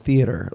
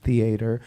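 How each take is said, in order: First: The word is said with a general American pronunciation. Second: The word is said the way people in Texas say it. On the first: "say theater, like uh, an American would" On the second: "in Texas, when I grew up, a lot of people would pronounce it theater"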